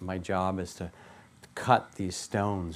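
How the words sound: The voice sounds tired and weary. The work feels like a drag.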